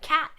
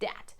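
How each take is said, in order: First: The word begins with a k sound. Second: The word begins with a d sound. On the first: The speaker calls it right. "that k sound" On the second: The speaker calls it wrong. "instead of a d sound"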